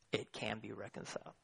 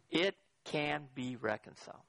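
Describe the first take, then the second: First: Much softer and lower, quicker run of words; hushed repeat. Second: Deliberate declaration. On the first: Preacher repeating his answer to the congregation, hushed. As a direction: drop it down low and quiet. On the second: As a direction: set each word apart with weight. Deliberate claim, then softer repeat. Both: Real, not acted.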